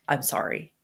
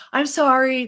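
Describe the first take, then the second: First: Low, soft and sincere; a quiet heartfelt apology; lower, gentle I'm sorry. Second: Said in the usual way. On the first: Shown as a demonstration. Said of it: "in a heartfelt way, say". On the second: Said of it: "no, "I'm sorry".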